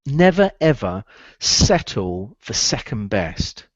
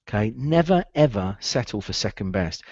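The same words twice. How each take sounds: First: Each word slow and deliberate for writing down; slow dictation. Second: Said in the usual way. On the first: Shown as a demonstration. Coach dictating the lesson to recruiters, slow and deliberate. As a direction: spell out the rule slowly, every word weighted. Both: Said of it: "write this one down".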